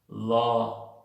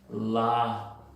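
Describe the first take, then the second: First: The vowel is a rounded 'aw' sound. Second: The vowel is an open unrounded 'ah' sound. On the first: "Es como una O" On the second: "En otro acento esto puede ser pronunciado como una A de doctor"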